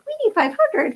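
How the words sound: It is said in a put-on cartoon voice. "I just heard SpongeBob in my head ... I kept saying it that way"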